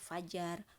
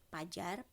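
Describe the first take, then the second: First: The word begins with an f sound. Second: The word begins with a p sound. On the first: The speaker calls it right. "seperti misalnya kata fajar" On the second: The speaker calls it wrong. "bukan dikemukakan atau bukan ditulis dengan pajar"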